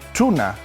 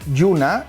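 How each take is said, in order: First: The word begins with a ch-like sound. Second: The word begins with a y-like palatal sound. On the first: This is how it is said on the other side of the isogloss. "y en el otro" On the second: This is how it is said on one side of the isogloss. "en un llau diríamos"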